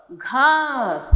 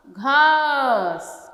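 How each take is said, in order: First: Said in the usual way. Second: "घास" drawn out very slowly, the "आ" held long; very slow stretched word. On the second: Shown as a demonstration. ("घास" बहुत धीरे, आ को लंबा खींचकर) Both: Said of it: "घा, स".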